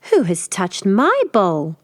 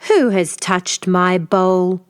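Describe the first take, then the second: First: A milder, slow mother bear growl. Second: Slow, heavy growl; growling father bear. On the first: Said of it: "Mother Bear growled". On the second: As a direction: rumble it slowly as the big bear. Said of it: "Father Bear growled". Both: Acted.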